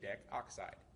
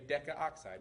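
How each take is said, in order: First: No extra vowel is sounded before 'oxide'. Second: An extra 'a' vowel is sounded before 'oxide'. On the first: The speaker calls it right. "we say decoxide. It makes it much smoother" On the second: The speaker calls it wrong. "we don't say decaoxide"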